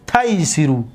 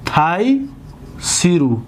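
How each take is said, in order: First: Said in the usual way. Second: تیسرو stretched out very slowly, syllable by syllable; slow demo. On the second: Shown as a demonstration. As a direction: spell out تیسرو slowly for the class. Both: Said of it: "ببینید".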